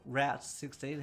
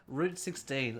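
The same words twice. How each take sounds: First: "Route" said like "rout"; "Route" pronounced as "rout"; alternative pronunciation. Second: "Route" said like "root"; "Route" pronounced as "root"; alternative pronunciation. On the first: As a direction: say "Route" with an ow vowel, rhyming with out. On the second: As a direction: say "Route" with an oo vowel, rhyming with boot. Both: Shown as a demonstration. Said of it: "however you wanna pronounce it".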